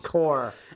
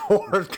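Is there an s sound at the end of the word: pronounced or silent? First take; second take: silent; pronounced. First: The word ends without any s sound. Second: The word ends with a clear s sound. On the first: The speaker calls it right. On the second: The speaker calls it wrong. "Not corpse"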